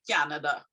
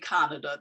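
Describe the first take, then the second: First: A y glide comes between k and vowel. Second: The k goes straight into the vowel. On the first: "We also do that for C and A" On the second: "some Trinis probably wouldn't say Canada"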